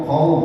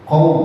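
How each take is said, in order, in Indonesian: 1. Vokal u terdengar penuh dan jelas. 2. Vokal u terdengar penuh dan jelas.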